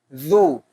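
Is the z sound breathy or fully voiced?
breathy. The z is breathy with air escaping. The speaker calls it wrong. "Itu mengalir nafas"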